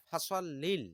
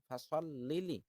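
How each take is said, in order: First: The phrase ends on a bare l sound. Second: The phrase ends on a short i vowel. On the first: The speaker calls it wrong. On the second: The speaker calls it right.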